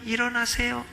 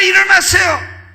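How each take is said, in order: First: It is said softly and quietly. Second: It is shouted loudly and urgently. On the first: The caller does not want to wake people. The speaker calls it wrong. "왜 그렇게 조용하게 하냐" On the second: The caller means to wake everyone. The speaker calls it right. "막 시끄럽게"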